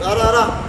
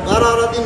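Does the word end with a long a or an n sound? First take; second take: long a; n sound. First: The word ends with a long a. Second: The word ends with an n sound. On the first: The reader stops on this word. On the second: The reading continues without stopping.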